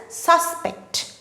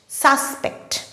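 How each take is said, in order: First: The stress is on the first syllable. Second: The same.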